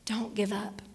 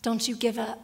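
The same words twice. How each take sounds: First: Whisper. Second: Said in the usual way. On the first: Real, not acted. Pastor urging a discouraged listener on, whispered.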